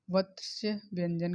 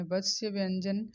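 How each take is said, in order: First: Said in the usual way. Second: वत्स्य stressed, व्यंजन with a rising end; careful repeat with वत्स्य stressed; repeated for emphasis. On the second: Shown as a demonstration. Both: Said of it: "वत्स्य व्यंजन कहते हैं".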